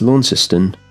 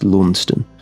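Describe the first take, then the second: First: The name is given its Tasmanian pronunciation. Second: The name is given its Cornish pronunciation. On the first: It names the town in Tasmania. "It's Launceston in Tasmania" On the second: It names the town in Cornwall. "the Launceston that I believe it was named after in Cornwall in England is pronounced"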